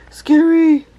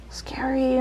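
First: Scary shrieked loud and high. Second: Scared whisper. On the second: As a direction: breathe it, afraid. Whisper heard. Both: Real, not acted.

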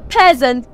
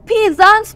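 First: "peasant" said as PEZ-unt; short e in "peasant", weak second syllable; correct pronunciation. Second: "peasants" said as PEE-zants; long ee opening "peasants", full second vowel; wrong pronunciation. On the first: Teacher correcting the word for learners, "peasant" pronounced PEZ-unt. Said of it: "we say peasant". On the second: Teacher warning learners off a mistake, "peasants" mispronounced PEE-zants. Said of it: "We don't say peasants". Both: Shown as a demonstration.

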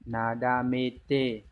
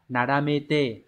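First: "Nadamete" drawn out very slowly, each syllable stretched, falling at the end; very slow repeat. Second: "nadamete" said slowly, syllable by syllable; slow reading. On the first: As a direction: stretch "Nadamete" right out so students can copy it. (nhắc lại "Nadamete" thật chậm) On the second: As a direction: read "nadamete" slowly and clearly, with a falling end. (đọc chậm "nadamete") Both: Shown as a demonstration. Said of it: "đọc là".

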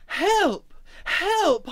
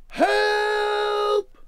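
First: High, loud cries of alarm; crying out. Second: Very high, long booming holler; top of the voice. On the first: Emma has fallen into the river, crying out. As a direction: cry out as if drowning. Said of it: "Emma cried". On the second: Wally summons rescuers for Emma, top of the voice. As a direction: boom it out, stretching the word. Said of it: "at the top of his voice he boomed". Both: A narrator's reading.

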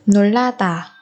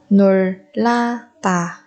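First: Said in the usual way. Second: 놀라다 slowly, each syllable apart. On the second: Shown as a demonstration. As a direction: break 놀라다 into drawn-out syllables. Teacher models word syllable by syllable.

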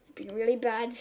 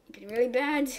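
No difference in how they are said.

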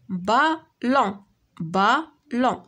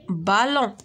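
First: Slow بالون in two beats, a gap between the syllables. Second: Said in the usual way. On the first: Shown as a demonstration. (بالون مقطعة على جوج سيلاب بشوية) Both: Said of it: "دو سيلاب".

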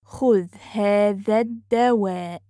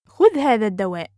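First: Measured, careful teaching pace. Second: Quick, flowing and joined up; fast model sentence; natural speed. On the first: Teacher repeats phrase slowly joined. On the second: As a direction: run the phrase together fluently. Teacher repeats phrase at speed. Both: Shown as a demonstration.

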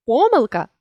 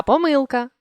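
First: Помилка with ПО stressed; stress on first syllable. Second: Помилка with МИЛ stressed; stress on middle syllable. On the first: Teacher shows a stress variant, помилка stressed on ПО. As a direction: punch the opening ПО of помилка. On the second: Teacher shows a stress variant, помилка stressed on МИЛ. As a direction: lean on МИЛ inside помилка. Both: Shown as a demonstration. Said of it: "наголосивши той чи інший склад".

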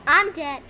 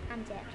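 First: Said in the usual way. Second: Very soft, low, sudden letdown; deflated. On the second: Real, not acted. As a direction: drop it right down low. First take, just got killed.

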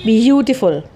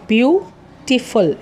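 First: Said in the usual way. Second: ब्यूटीफुल slowly split as ब्यू, टी, फुल; syllable by syllable. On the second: Shown as a demonstration. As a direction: break ब्यूटीफुल into three clear beats. (ब्यूटीफुल को तीन syllable में धीरे से) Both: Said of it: "तीन vowel sound आ रहे हैं".

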